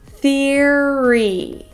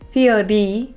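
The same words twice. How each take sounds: First: The middle consonant is an R sound. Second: The middle consonant sounds like a B. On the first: The speaker calls it right. "we want to make that er" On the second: The speaker calls it wrong. "instead of saying a B sound, like theory"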